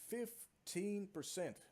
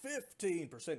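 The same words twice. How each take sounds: First: It is said flatly, without special emphasis. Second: It is said with excited, energetic emphasis. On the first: The number seems small. "it doesn't sound like a big number" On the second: The number seems impressive. "when I say it like fifteen percent, yeah, it sounds great"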